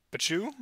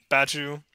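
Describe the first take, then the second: First: "Bachu" with rising question tune, reduced first vowel; retry "Bachu" higher at the end, as a question; doubtful second guess. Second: "Bachu" stated, full first vowel; first-guess pronunciation. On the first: Host doubting a supporter's name, questioning retry. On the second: Host reading out a supporter's name, first-guess pronunciation. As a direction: say "Bachu" as a plain first attempt. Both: Real, not acted. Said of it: "I'm gonna butcher everyone's name".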